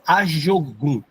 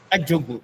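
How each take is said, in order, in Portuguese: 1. A consoante depois da primeira vogal soa como 'zh'. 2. A consoante depois da primeira vogal soa como 'dj'. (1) "vê que não é Ajogun" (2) "O J tem som de Ti"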